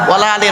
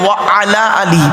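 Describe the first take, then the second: First: The first two words merge into 'wala'. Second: 'Wa' and 'ala' are said as separate words. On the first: The phrase takes on a negative meaning. The speaker calls it wrong. "ওয়ালা আলি নয়, ওয়ালা আলি বলবেন না" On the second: The phrase keeps its prepositional meaning. The speaker calls it right.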